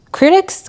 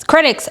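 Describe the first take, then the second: First: "critics?" asked with a rising tune; unsure try. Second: "Critics." said firmly with a falling tune; settled word. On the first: Vlogger trying out the word, unsure. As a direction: test the word "critics" as a question. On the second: Vlogger settling on the right word. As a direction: land on "Critics" with certainty. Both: Shown as a demonstration.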